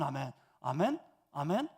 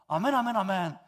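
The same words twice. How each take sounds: First: The three amens are said slowly. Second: The three amens are said quickly.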